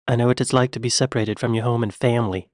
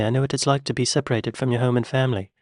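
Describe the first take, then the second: First: Quick British imitation, flatly American "family"; Kevin Costner. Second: Put-on rushed British accent slipping to American on "family"; Kevin Costner. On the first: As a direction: race through, dropping the accent on "family". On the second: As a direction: rattle it off, losing the British on "family". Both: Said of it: "he dropped the accent on the word family".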